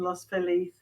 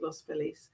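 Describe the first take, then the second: First: The name is said the English way. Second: The name is said the local American way. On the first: "I would say it as an English person" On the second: "they pronounce it"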